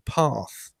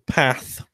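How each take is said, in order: First: The A is broad, as in British English. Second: The A is flat, as in American English.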